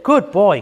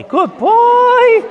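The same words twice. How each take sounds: First: Said in the usual way. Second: Far higher, louder praise; high dog praise. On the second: Real, not acted. Trainer rewarding her dog for the string, high excited praise.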